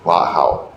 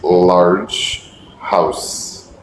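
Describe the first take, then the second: First: The ending sounds of both words are dropped. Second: The ending sounds of both words are pronounced. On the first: The speaker calls it wrong. "You said La House" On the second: The speaker calls it right. "the correct pronunciation is large house"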